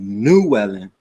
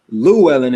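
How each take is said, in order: First: The name begins with an N sound. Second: The name begins with an L sound. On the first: This is the new version of the name. "you pronounce them as N sounds" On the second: This is the old version of the name. "I'm not necessarily Llewellyn anymore"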